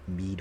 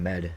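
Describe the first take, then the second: First: The vowel is long, like in need. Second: The vowel is short, like in bed. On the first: The speaker calls it right. "Mead with a, a long E" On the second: The speaker calls it wrong. "I keep on pronouncing it as med"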